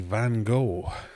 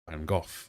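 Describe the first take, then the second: First: The name is said the American way. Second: The name is said the British way. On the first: "as the Americans would say" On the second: "we would say"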